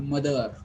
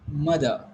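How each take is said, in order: First: Mother, said MUH-ther with a final R; wrong, sounded R. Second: Mother, said MUH-thuh without a final R; silent R. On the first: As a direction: say "mother" with the end R pronounced. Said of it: "not mother". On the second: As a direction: say "mother" ending on uh. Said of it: "not R". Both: Shown as a demonstration.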